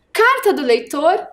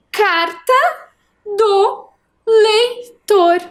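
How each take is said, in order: First: Said in the usual way. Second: "Carta do leitor" high and very slow, pauses between pieces; slow segmented reading. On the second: Shown as a demonstration. Teacher reading the whole title with pupils, "Carta do leitor" slowly segmented. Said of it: "Vamos ler tudo agora?".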